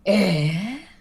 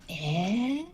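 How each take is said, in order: First: It sounds angry and disappointed. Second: It sounds thoughtful and hesitant.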